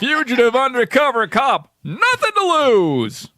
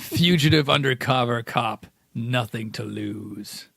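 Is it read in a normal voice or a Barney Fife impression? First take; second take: Barney Fife; normal voice. First: It is read as a Barney Fife impression. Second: It is read in his normal voice.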